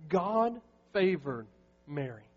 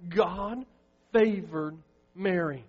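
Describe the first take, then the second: First: Said in the usual way. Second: "favored" slowed and leaned on; emphatic repeat. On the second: Acted. Pastor pressing the point home to the congregation, slow emphatic stress. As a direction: hold "favored" long and hit it.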